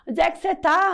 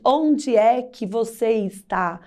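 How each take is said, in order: First: The words are said quickly and run together. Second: The words are said separately, with the full form. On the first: This is how people talk casually every day. "Às vezes a gente fala uma palavra muito rápido" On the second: This is the complete form used in writing. "nós não pronunciamos corretamente"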